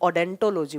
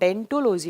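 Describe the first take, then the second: First: The word begins with an audible 'o' sound. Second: The word begins directly with the 'd' sound.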